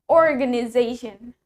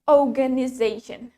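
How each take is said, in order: First: It is said in an American accent. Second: It is said in a British accent. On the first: "While in American English, we say it" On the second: "In British English, we say it"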